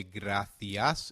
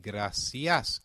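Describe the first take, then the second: First: "gracias" with a lisped th, grathias; European Spanish gracias. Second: "gracias" with a clear s, grasias; Latin American gracias. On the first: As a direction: say "gracias" the Castilian way, th not s. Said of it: "we will say gracias in European Spanish". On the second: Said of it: "gracias in Latin American Spanish". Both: Shown as a demonstration.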